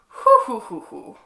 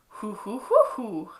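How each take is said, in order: First: The hoots sound disapproving, with changed pitch. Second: The hoots sound curious, with changed pitch.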